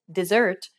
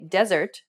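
First: Dessert stressed on SERT; second-syllable stress. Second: Desert stressed on DES; first-syllable stress. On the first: Teacher contrasting English words, dessert stressed on SERT. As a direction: land on the last syllable of dessert. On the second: Teacher contrasting English words, desert stressed on DES. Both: Shown as a demonstration. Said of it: "Consider some examples in English".

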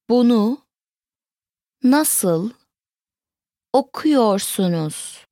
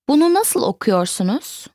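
First: Slow, word-by-word teaching model; broken down. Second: Said in the usual way. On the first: Shown as a demonstration. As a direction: say it word by word with long pauses. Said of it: "Let's break it down". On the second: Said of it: "Once more".

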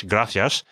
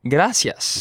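First: Gracias with a th lisp; European gracias. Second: Gracias with a plain s sound; Mexican gracias. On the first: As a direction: gracias the Castilian way. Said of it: "European Spanish". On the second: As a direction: say "gracias" with an s, not a th. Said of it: "me being from Mexico". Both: Shown as a demonstration.

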